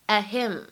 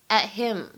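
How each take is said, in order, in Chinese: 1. t 在 'him' 前面憋住，不爆破。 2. t 在 'him' 前面憋住，不爆破。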